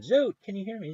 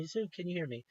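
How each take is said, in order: First: Calling out a name, half-raised and higher; retold yelling. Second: Calling again with the hope gone out of it; fading call. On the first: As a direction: shout across the line to someone who can't hear you. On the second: Retold or imitated. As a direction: repeat the call, dropping to softer. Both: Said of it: "I kept yelling at him".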